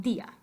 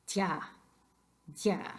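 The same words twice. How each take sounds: First: "día" in two syllables, stressed on the í. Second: "tía" squashed to one syllable, like "dya"; one-syllable DÍA. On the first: Teacher gives the wanted form, "día" in two syllables. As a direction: break "día" apart as DEE-a. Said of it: "We want día". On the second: Teacher shows what we don't say, "tía" as one syllable. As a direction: glide the i of "tía" straight into the a. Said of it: "try to say that word in one syllable". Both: Shown as a demonstration.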